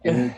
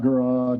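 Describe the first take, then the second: First: The name sounds like Garrett. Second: The name sounds like Gerard. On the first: The speaker calls it right. "as long as you pronounce it correctly" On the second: The speaker calls it wrong. "not Gerard"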